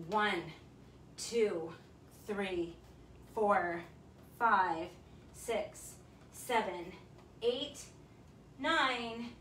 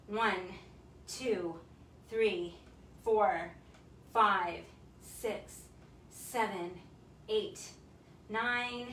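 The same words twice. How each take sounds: The two takes are said the same way.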